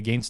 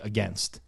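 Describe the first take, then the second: First: The word has a Canadian pronunciation. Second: The word has an American pronunciation. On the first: "You say against as well because that's how you're brought up to say it" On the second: "But Americans say against"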